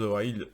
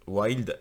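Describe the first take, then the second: First: Wild fumbled, its final d dropped; fumbled English. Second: Wild said over, final d sounded; self-corrected English. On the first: Game reviewer stumbles over an English title, fumbled Wild. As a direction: stumble on Wild, leaving the end off. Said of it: "désolé avec mon anglais". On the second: Game reviewer corrects his English title, self-corrected Wild. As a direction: correct yourself on Wild, finishing the word. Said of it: "excusez-moi, désolé avec mon anglais". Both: Real, not acted.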